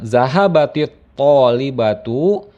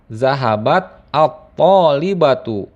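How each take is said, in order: First: The verb's final t is followed by an i sound. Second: The verb's final t is followed by an a sound. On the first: The vowel is added to make it easier to say. "dalam pengucapan" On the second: This is the underlying original form. "asal lafaznya adalah"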